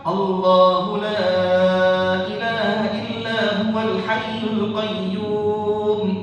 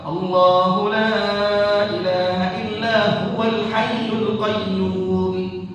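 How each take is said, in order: First: The long vowels are held for four counts. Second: The long vowels are held for two counts. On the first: "Kalau empat" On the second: "Kalau kita baca dua"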